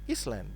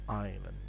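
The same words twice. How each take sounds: First: The S is pronounced in the middle. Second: The S is not pronounced at all. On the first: This matches how the word is spelled. The speaker calls it wrong. "when writing, we say island" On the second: This is how the word is actually spoken. The speaker calls it right. "when we're speaking, we say island. That's the silent S"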